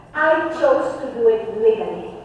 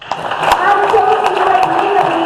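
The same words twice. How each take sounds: First: Said in the usual way. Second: Higher and louder with a push on chose; insistent restatement of the claim; emphatic repeat. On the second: Real, not acted. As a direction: hammer the point home by stressing chose. Repeats claim, second time emphatic.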